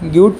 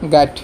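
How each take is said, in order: First: It sounds like 'gyoot', with an 'oo' vowel. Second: It sounds like 'guide', with an 'eye' vowel. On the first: The speaker calls it wrong. "গিউট পঢ়িব" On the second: The speaker calls it right. "সঠিক প্ৰনাউন্সিয়েশ্যন হ'ল ইয়াৰ গাইড"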